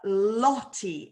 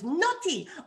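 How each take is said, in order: First: The name begins with an L sound. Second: The name begins with an N sound. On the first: This is the name's usual form. "I was never Lottie in Thailand" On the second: This is how people there said the name. "I was naughty"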